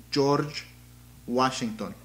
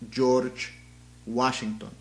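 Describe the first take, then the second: No difference in how they are said.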